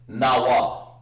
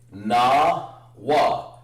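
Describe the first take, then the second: First: The two syllables are joined as one sound. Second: The two syllables are split apart. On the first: "but actually really na wa. That's one sound" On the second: "you can say"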